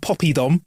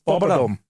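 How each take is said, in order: First: The middle syllable has an 'ee' sound. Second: The middle syllable has an 'uh' sound. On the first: The speaker calls it wrong. "There's no Y in it" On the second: The speaker calls it right. "got to say it proper"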